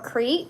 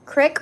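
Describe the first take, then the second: First: The vowel is long, like 'eek'. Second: The vowel is short, like 'ick'. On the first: "E, double E says E" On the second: "Crick or creek?"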